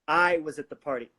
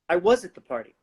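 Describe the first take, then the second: First: The stress is on the word I. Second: The stress is on the word was.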